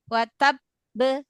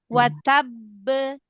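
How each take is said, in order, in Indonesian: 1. Kata ini terpotong dengan jeda di dalamnya. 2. Kata ini mengalir lancar tanpa jeda. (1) "Jadi bukan" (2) "nggak boleh ngerem, nggak boleh syidahnya nggak boleh terkunci"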